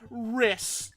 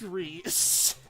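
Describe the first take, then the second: First: The name has a short vowel, like 'kiss'. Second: The name has a long vowel, like 'piece'. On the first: The speaker calls it wrong. "Fucking hate that pronunciation of uh of that specific word" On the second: The speaker calls it right. "No, it's Reese"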